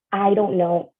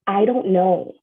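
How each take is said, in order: Both takes have the same delivery.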